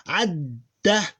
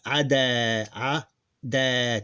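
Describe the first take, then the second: First: Adda with the dd held, one beat longer; doubled d. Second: Ada with a short single d. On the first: Teacher contrasts adda with ada. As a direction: hold the d in adda before releasing. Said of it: "doesn't sound like ada". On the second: Teacher contrasts plain ada with adda. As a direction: say ada lightly, no held consonant. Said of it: "Two different syllables". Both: Shown as a demonstration.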